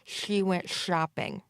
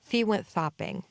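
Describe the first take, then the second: First: The sh sounds are slushy, air escaping sideways. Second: The sh sounds are lisped, tongue forward. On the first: "a slurpy, slushy type of sound" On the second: "A frontal lisp"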